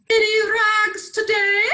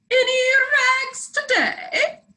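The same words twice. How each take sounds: First: Sung, high sing-song ragman's call. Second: Sung, even higher, slower sing-song call; sung, stretch the call out, higher; sung call again. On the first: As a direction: sing it out like a street peddler. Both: Acted. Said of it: "sang the ragman".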